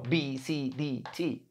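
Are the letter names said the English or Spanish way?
English. The letters are named the English way. The speaker calls it right.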